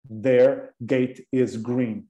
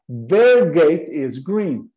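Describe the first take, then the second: First: Very slow, careful sentence; slow model sentence. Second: Slow model sentence. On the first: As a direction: read it word by word for learners. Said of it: "O portão delas é verde". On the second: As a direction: repeat it clearly for the class. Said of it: "duas irmãs". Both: Shown as a demonstration.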